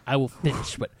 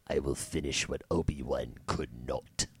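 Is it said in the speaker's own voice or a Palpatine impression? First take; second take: own voice; Palpatine impression. First: It is said in his own normal voice. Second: It is said in a Palpatine impression voice.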